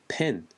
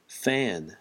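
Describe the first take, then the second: First: The word begins with a p sound. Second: The word begins with an f sound. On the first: "근데 한국에서는 어떻게 말하죠?" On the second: "선풍기, fan"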